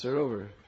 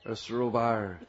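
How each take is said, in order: First: The A vowel is kept short. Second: The A vowel is drawn out long. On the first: The speaker calls it right. "It's a short A" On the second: The speaker calls it wrong. "Our Western tongues butcher all the nice Brijbhasa words"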